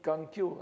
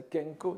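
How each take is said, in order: First: "Kankyo" with an opening "kan", in the non-Buddhist reading. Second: "Kenko" with an opening "ken", in the Buddhist reading. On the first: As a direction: say "Kankyo" with an a in the first syllable. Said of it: "lu à la non-bouddhique". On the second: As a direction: say "Kenko" with an e in the first syllable. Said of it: "à la bouddhique ce serait". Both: Shown as a demonstration.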